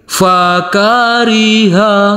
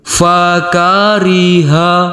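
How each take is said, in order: First: The pitch goes up across the word. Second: The pitch stays level throughout the word. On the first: "Yang kedua nada naik" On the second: "Yang pertama nada datar"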